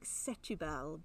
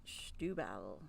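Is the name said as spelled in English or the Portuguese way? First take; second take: as spelled; Portuguese way. First: The name is read as English spelling suggests. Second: The name is said with its Portuguese pronunciation. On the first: The speaker calls it wrong. "It looks like Setúbal" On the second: The speaker calls it right. "but you pronounce it Setúbal"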